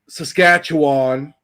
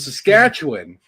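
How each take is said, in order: First: The last syllable sounds like wan. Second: The last syllable sounds like win. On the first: The speaker calls it wrong. "Or or wan" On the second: The speaker calls it right. "how I've been pronouncing it my entire life"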